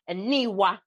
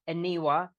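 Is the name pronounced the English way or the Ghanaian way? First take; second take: Ghanaian; English. First: The name is said with Ghanaian pronunciation. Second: The name is said with English pronunciation. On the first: "If you wanna do Ghanaian" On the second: "If you wanna kind of anglicize it"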